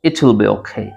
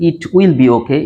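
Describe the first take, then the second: First: 'It' and 'will' run together as one unit. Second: 'It' and 'will' are said as separate words. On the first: The speaker calls it right. "ইট উইল এটাকে connect করে" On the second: The speaker calls it wrong. "এটাকে এভাবে না বলে"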